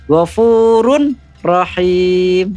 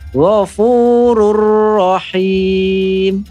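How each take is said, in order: First: The n is kept before the following r. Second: The n merges fully into the following r. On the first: The speaker calls it wrong. "bukan Ghafurun Rahim. Itu salah ya" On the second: The speaker calls it right. "cara membacanya disempurnakan"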